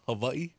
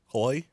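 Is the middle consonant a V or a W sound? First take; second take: V; W. First: The middle consonant is a V sound. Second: The middle consonant is a W sound.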